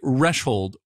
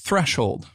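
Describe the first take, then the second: First: The word starts with its opening sound cut off. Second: The word starts with a soft 'th' sound. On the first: The speaker calls it wrong. "running it through an improperly set gate may make it sound more like threshold" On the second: The speaker calls it right. "The th sound at the beginning is very quiet"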